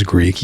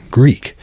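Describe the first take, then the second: First: Said in the usual way. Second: Greek set apart by a pause, slow and emphatic; pause, then lean hard on Greek; stress on Greek. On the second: Shown as a demonstration. Explaining Alexander was not truly Greek, stressing Greek slowly after a pause. Emphatic second sense of the word.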